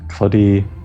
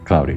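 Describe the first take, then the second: First: The first vowel rhymes with blood. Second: The first vowel sounds like cloud. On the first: The speaker calls it wrong. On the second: The speaker calls it right.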